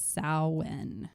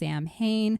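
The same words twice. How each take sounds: First: It is said differently from its spelling. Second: It is said the way its spelling suggests. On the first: The speaker calls it right. "the proper pronunciation" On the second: The speaker calls it wrong. "spelled like it would be pronounced"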